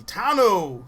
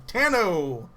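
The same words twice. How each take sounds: First: "Tano" with a broad "ah", TAH-no; "Tano" said with the open vowel of "father"; first pronunciation. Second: "Tano" with a short flat a, TAN-oh; "Tano" said with the vowel of "tan"; alternative pronunciation. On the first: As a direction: call out "Tano" as TAH-no, falling at the end. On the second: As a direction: call out "Tano" as TAN-oh, falling at the end. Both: Shown as a demonstration. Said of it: "It's either Tano or Tano".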